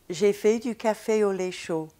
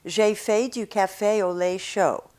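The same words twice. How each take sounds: First: It is said with a French accent. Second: It is said with an American accent.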